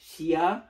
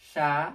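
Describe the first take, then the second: First: It is said as two syllables, shi-ya. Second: It is said as one syllable, sha. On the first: The speaker calls it wrong. "ছন্দ অনুসারে হওয়ার কথা ছিল" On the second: The speaker calls it right. "এটা প্রোনাউন্সিয়েশন হবে সা"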